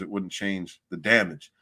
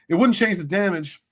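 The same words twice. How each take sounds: First: Said in the usual way. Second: Higher and louder, leaning on wouldn't; emphatic repeat. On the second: Real, not acted. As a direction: hit "wouldn't" hard and high as you repeat it.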